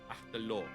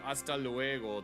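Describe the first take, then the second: First: The second word is shortened to one syllable. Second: The second word is said in full. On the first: "in Chile, they say hasta lo. Where luego just becomes lo" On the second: "instead of saying hasta luego"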